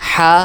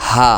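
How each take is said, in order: First: হা said with pressure from the throat; pressed throat ha. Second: হা said lightly, breath simply let go; light released ha. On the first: Teacher demonstrates the heavy হা for students, pressed. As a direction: push হা out with a firm throat. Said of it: "প্রথমটা একটু চাপ দিয়ে". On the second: Teacher demonstrates the light হা for students, released. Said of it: "দ্বিতীয়টা একদম হালকা ছেড়ে দিয়ে". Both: Shown as a demonstration.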